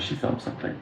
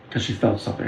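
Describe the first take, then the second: First: Breathy hushed whisper on felt. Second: Said in the usual way. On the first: Retold or imitated. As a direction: lean in and whisper it like a secret. Repeats line, second time hushed.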